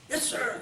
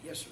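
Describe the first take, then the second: First: It is shouted very loudly. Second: It is said at a normal, quiet volume.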